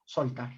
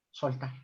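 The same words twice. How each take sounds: The two takes are said the same way.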